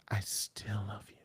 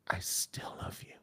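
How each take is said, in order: First: It is said in a breathy, intimate voice. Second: The same.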